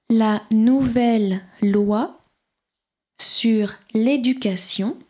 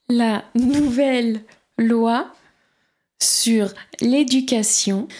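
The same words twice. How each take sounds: No difference in how they are said.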